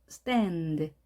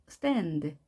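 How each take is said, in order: The two takes are said the same way.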